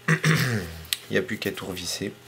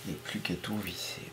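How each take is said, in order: First: Said in the usual way. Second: Softer, faster repeat to himself; quick self-directed murmur; quiet quick mutter. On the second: Real, not acted. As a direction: mumble it under your breath, quickly.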